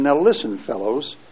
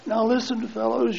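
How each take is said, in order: First: It is said in the speaker's ordinary voice. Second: It is said in an imitated character voice.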